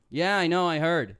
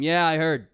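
First: Louder, higher dismissive brush-off; showing how he said it rudely; said like a dick. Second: Much louder curt brush-off; dismissive like a dick. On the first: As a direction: say it like a dick, bored and curt. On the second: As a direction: toss it off loud and dismissive. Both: Shown as a demonstration. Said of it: "I said it like".

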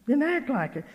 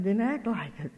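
First: Higher-pitched, insistent repeat; emphatic admonition. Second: Said in the usual way. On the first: Retold or imitated. Speaker urging child of God, insistent retold admonition. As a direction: press it home with lifted voice.

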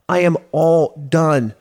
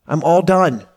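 First: Slow, with "am" hit hard and drawn out; stress on AM. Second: Said in the usual way. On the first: Retold or imitated. Telling himself he quits consulting, with "am" stressed. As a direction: lean into "am" to close the door.

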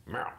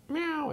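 First: Raspy, rough "meow" like a chain-smoking cat; smoker cat meow. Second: High, clean kitten "meow"; a sweet ordinary cat; normal cat meow. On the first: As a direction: croak it like a cat with a pack-a-day habit. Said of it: "sounds like it's been smoking for twenty years". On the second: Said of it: "it doesn't meow". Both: Shown as a demonstration.

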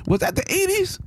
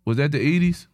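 First: High, disbelieving question; incredulous. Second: Said in the usual way. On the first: Real, not acted. Shocked about the era.

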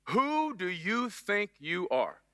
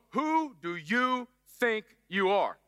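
First: Slow, drawn-out scolding mom; slow accusing mom question. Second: Very slow, drawn-out motherly scold; slow mock mom scolding. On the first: Retold or imitated. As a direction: stretch every word like an angry mother. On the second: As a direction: drag it out like a mom who's had enough. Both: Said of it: "it's gotta be said in that slow".

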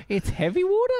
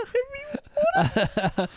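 First: High, laughing question; amused disbelief. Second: Much higher, slow, laughing through it; drawn-out laughing repeat. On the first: Co-host laughing at the film title, amused disbelief. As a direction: giggle the title back in disbelief. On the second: Repeating the title to her co-host, cracking up. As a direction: stretch the words out while cracking up. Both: Real, not acted.

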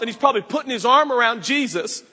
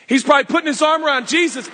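First: Said in the usual way. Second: Louder and fast, bursting with glee; excited retelling. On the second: Shown as a demonstration. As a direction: say it again with a rush of excitement.

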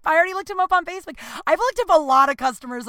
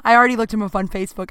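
First: Much higher and rushed, giddy; flustered rush. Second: Said in the usual way. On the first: Real, not acted. Confessing her Facebook snooping in a high flustered rush. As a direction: blurt it out in an embarrassed rush.

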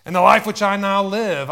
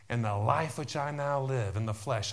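First: Much louder and higher, shouted scripture; forceful proclamation. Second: Said in the usual way. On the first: Real, not acted. Preacher declaring scripture to the church, forceful shout. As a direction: belt out the verse at full force.

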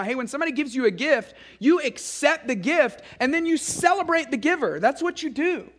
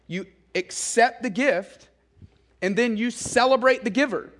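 First: Put-on higher, sing-song voice as if to little kids; teaching little kids. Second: Said in the usual way. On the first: Shown as a demonstration. Parent teaching little kids to accept a gift, higher teaching voice. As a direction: coach a small child through "accept the gift". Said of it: "we're trying to teach them to do that". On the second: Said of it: "No, you do two things".

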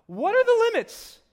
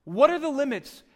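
First: Much higher and louder; exaggerated defiant question; high loud mock teen question. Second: Loud, a bit less high; insistent repeat; repeated loud question. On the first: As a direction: whine it like a pushing teenager. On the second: Acted. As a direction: press the question again.

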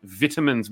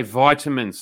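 First: Vitamins with a short i, like vit-amins; mocked vitamins. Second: Vitamins with a long i, like vye-tamins; proper vitamins. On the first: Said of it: "are also saying vitamins". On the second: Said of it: "We say vitamins". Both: Shown as a demonstration.

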